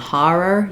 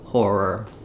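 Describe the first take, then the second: First: The first vowel has little lip rounding. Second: The first vowel is clearly rounded. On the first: This is a regional pronunciation, such as in New York. "more of an R, not as much rounding in that first syllable" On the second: This is the usual pronunciation in most of the country. "for most areas of the U S, an or is used"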